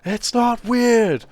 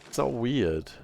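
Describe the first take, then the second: First: It is said loudly, as if protesting innocence. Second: It is said at a normal, quieter volume.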